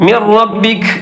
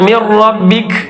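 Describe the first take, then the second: Both takes have the same delivery.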